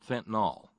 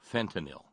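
First: The last syllable has a different vowel. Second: The last syllable has a short i vowel. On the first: The speaker calls it wrong. "Not fentanyl" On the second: The speaker calls it right. "N-Y-L with the Y pronounced as a short I"

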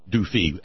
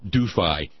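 First: The final vowel sounds like 'ee'. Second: The final vowel sounds like 'eye'. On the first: The speaker calls it right. "We pronounce the I as E" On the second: The speaker calls it wrong. "not I"

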